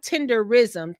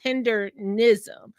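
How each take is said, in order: First: It has no n sound before -ism. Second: It has an n sound before -ism. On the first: The speaker calls it wrong. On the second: The speaker calls it right.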